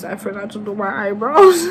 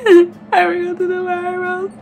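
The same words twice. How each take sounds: First: Mock whine. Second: High wailing mock sob; fake crying. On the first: Building mock despair. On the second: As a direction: wail the line like fake crying. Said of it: "Stop crying".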